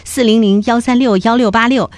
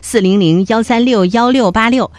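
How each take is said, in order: No difference in how they are said.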